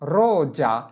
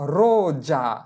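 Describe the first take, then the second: First: The middle consonant is a buzzing z sound. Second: The middle consonant is a buzzing z sound.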